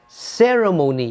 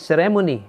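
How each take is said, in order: First: The stress is on the first syllable. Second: The stress is not on the first syllable. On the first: The speaker calls it right. "the stress mark must be in the first syllable again" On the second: The speaker calls it wrong. "which is wrong"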